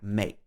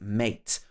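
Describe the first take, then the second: First: The final T sound is dropped. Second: The final T sound is clearly pronounced.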